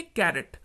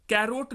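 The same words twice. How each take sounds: First: कैरेट with a short E in the second syllable; correct pronunciation. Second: कैरोट with a long O in the second syllable; wrong pronunciation. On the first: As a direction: say कैरेट, ending in "-ret". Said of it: "इसको क्या पढ़ेंगे". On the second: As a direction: say कैरोट, ending in "-rote". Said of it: "कैरोट नहीं पढ़ेंगे". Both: Shown as a demonstration.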